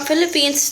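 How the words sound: It is said in a put-on British accent.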